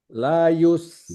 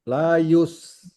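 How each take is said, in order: No difference in how they are said.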